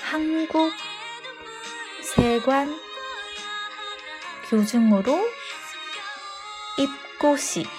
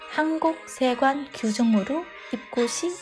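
First: It is spoken slowly and deliberately. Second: It is spoken at a normal pace.

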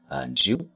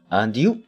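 First: The two words run together as one unit. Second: The two words are said as separate words. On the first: "我们把它连在一块儿读" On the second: "当然你读and you 也行"

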